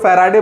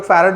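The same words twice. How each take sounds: First: "फैराडे" ending in a long "-ay" vowel; "फैराडे", final syllable sounded as "day"; Faraday pronunciation. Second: "फैरड" ending on a closed "d"; "फैरड" with no vowel after the final d; farad pronunciation. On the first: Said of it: "कई लोग फैराडे बोलते हैं". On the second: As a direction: say "फैरड" in two syllables, fa-rad. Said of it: "कई लोग फैरड बोलते हैं". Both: Shown as a demonstration.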